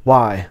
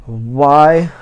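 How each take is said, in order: First: Said in the usual way. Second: Higher, loud, drawn-out "why"; exasperated lament. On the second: Real, not acted. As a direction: wail it louder and longer in protest. Laments having to reread book.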